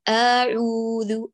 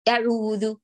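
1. الحركة ممطوطة أكثر من اللازم. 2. الحركة مختلسة ومقطوعة بسرعة. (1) "لا يعتني بالزمن فيمطط" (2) "يختلس الحركة"

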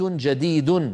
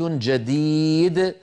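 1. تنتهي الكلمة بتنوين -un مسموع. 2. تنتهي الكلمة بدون أي صوت تنوين. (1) "يعني مثلا هذا بيت جديد" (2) "إذا وقفوا يقولون"

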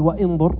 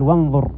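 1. تُنطق همزة القطع بعد 'wa'. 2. يتصل 'wa' مباشرة بصوت 'n'. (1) "ما قال وانظر" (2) "قال وانظر، كأن الواو اتصلت بالنون"

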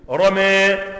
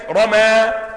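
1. الحركة الأخيرة تميل نحو صوت 'e'. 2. الحركة الأخيرة هي 'a' مفتوحة تماماً. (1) "هيقول ايه فيها اللي بيميل؟" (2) "رمى بالتفخيم"

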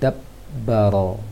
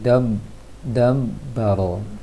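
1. Huruf b yang dobel ditekan dengan kuat menggunakan bibir. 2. Huruf b yang dobel lemah dan berdengung sengau. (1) "Lebih kuatkan lagi" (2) "Kalau kurang kuat dia jadi dam dam baro. Semi mim yang dibaca"

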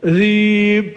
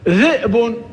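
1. تحلّ ياء المدّ الطويلة محلّ الهمزة. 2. تُسمع همزة بعد الحرف الأول.

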